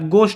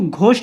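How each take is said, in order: First: The first consonant has no h sound. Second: The first consonant has a breathy h sound. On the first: The speaker calls it right. "एच silent रहता है" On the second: The speaker calls it wrong. "इसको घोस्ट नहीं बोलोगे आप"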